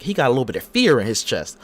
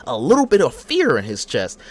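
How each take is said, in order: First: Said in the usual way. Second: Louder repeat leaning on fear; repeated for emphasis. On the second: Shown as a demonstration. Host repeating the line about Seth Rollins, louder and emphatic. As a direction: say it again and punch fear.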